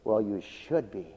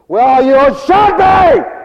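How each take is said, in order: First: It is said in a mild, plain tone. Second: It is said in a harsh, cutting tone. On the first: The reply is meant as a simple remark. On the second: The listener takes the reply as an insult.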